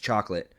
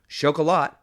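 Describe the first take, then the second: First: It is said like the English word chocolate. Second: It is said the French way, without a final t. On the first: The speaker calls it wrong. "Do not come at me saying it's chocolate" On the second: The speaker calls it right. "doesn't have an E at the end"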